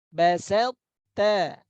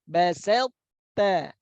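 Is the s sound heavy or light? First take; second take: light; light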